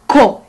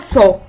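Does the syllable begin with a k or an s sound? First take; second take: k sound; s sound. First: The syllable begins with a k sound. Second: The syllable begins with an s sound. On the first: The speaker calls it right. "Nous avons le son K" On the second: The speaker calls it wrong. "c'est pas SO"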